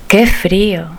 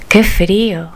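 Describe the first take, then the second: No difference in how they are said.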